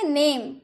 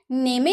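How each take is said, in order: First: Said in the usual way. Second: "नेमे" in two syllables, final e sounded; sondaki E sesli. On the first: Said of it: "ई का उच्चारण नहीं होता है". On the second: Shown as a demonstration. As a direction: wrongly pronounce the silent E, "नेमे". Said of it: "नेमे तो नहीं बोल सकते".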